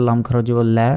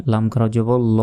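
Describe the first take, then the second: First: লা with a thin, front "la"; light lam. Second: ল as a rounded, long "lo"; heavy lam. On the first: Teacher shows the case with jer, light লা. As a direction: say লা light, as after a kasra. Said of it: "জের থাকতো তাহলে". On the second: Teacher shows the case with pesh, heavy long ল. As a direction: hold ল as a full back "lo", not "la". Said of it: "লা না বলে ল বলতে হয়". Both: Shown as a demonstration.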